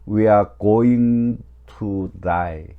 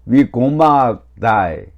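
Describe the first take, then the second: First: Each word of "going to" is said in full. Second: "Going to" is run together quickly as "gonna."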